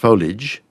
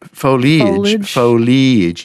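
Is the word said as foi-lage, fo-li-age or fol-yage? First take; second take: fol-yage; fo-li-age. First: The word has no vowel after the L. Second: The word has an ee vowel after the L. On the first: This is the first reduced form. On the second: This is the original full form. "foliage ear"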